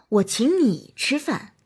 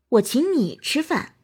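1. 重音在“你”上。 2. 重音在“你”上。

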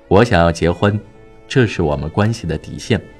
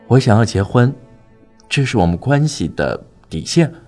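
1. 声音听起来温和、平静而坚定。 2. 声音听起来胆怯，像孩子一样。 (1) "正确示范：神情和语气温和而坚定。" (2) "错误示范：眼神很胆怯地看着对方，把自己变成了小孩"

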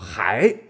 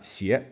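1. 这个词开头是 h 音。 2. 这个词开头是现代的 x 音。

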